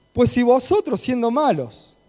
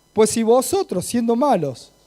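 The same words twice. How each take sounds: The two takes are said the same way.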